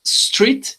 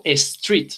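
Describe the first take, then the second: First: STREET starting straight on the S, no E before it; high, clean STREET with an initial S cluster; correct pronunciation. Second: STREET said as "estreet"; E added before. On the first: Teacher showing students the target word, correct STREET without a leading E. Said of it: "yo en vez de decir street". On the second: Teacher showing a learner's error, STREET mispronounced with a leading E. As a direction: put an extra E in front of STREET. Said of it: "Le pongo una E antes". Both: Shown as a demonstration.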